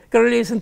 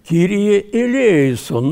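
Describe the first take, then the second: First: The words are slurred together into one mumble. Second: Each word is clearly and separately articulated. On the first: The speaker calls it wrong. "Начинают курлыкать" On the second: The speaker calls it right. "по-гречески верно"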